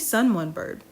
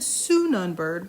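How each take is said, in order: First: The middle syllable sounds like the word 'one'. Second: The middle syllable sounds like a short 'un'. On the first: The speaker calls it right. "it's definitely Sun One Bird" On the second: The speaker calls it wrong. "watch me be pronouncing this wrong. And I think I said Sunun Bird"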